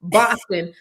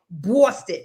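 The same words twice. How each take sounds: First: Boston said the California way, Californian accent, flat "ah" and a clear n. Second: Boston in a Boston accent, slow, drawn "Baw-stuh" with the n dropped. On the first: Host admits her California accent can't say it, Californian accent. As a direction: Californian accent: Boston with an open "Bahs" and a crisp "ton". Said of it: "with my California accent". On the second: Host coaching guest on the local pronunciation, slow Boston accent. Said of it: "You gotta say Boston". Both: Shown as a demonstration.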